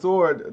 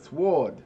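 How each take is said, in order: First: The W sound is silent. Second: The W sound is pronounced. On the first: This is how the word is normally said. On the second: This is how the speaker used to say the word.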